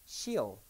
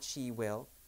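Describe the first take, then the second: First: Will is reduced to a short ol sound. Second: The word will is said in full.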